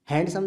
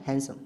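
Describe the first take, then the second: First: "हैंडसम" with D sounded; wrong pronunciation. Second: "हैंडसम" said as "hansum", no D; correct pronunciation. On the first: Teacher showing the silent-D mistake, mispronounced. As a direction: pronounce the D in "हैंडसम". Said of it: "तो नहीं". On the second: Teacher showing the silent D, correctly pronounced. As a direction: go from N straight to S in "हैंडसम". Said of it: "डी silent रहता है". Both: Shown as a demonstration.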